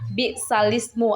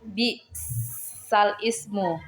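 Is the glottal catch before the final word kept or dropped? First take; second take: dropped; kept. First: The glottal catch is dropped, its vowel moved back. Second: The glottal catch before the final word is kept. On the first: "nakalkan bacaan tersebut menjadi ... memindahkan atau menggeserkan huruf" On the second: "sebelum kita nakalkan dibaca"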